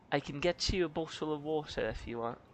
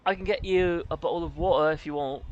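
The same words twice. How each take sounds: First: "bottle of water" with each T fully sounded; softer British take, articulating the Ts in "bottle" and "water"; crisp British T. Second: "bottle of water" with the Ts dropped, British style; louder British take, swallowing the Ts in "bottle" and "water"; British glottal T. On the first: Offering a drink two ways, "bottle of water" with crisp Ts. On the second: Offering a drink two ways, "bottle of water" with glottal Ts. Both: Shown as a demonstration. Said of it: "you can say it two ways".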